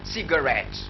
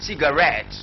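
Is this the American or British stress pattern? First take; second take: American; British. First: It is said with the American stress pattern. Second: It is said with the British stress pattern. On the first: "In American English they say cigarette" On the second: "British English they say cigarette"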